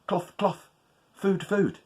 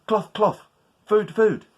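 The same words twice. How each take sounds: First: Higher hopeful spell; magic words. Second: Higher, louder, pushing the spell; insistent spell. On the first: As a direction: say it expectantly. First try of spell. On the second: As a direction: say it harder, willing it to work. Spell fails, tries harder. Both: Acted.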